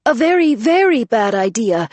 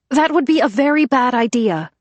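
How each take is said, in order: First: "very, very" hammered, high and loud; stress on very. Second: High, loud warning over the noise; calling out. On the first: Vero repeating her warning over the women, pressing on "very". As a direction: lean hard on "very, very". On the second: Vero calling out over the arguing women, high and loud. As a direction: call out over arguing voices. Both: Acted. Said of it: "Vero called out over the women".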